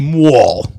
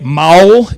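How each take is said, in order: First: It is said with a Northern US accent. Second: It is said with a Southern US accent. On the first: "Northerners say mual" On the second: "Southerners say maul"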